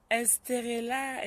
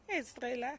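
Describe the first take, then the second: First: Estrella spelled out slowly, every syllable separate; slow careful name. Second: Said in the usual way. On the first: Shown as a demonstration.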